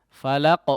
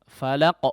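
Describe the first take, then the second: Both takes have the same delivery.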